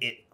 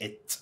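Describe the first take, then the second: First: The word ends without a t sound. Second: The word ends with a clear t sound. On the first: "انا بقولها إيه" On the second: "مش ات"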